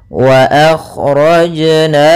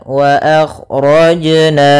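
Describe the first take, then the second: The two takes are said the same way.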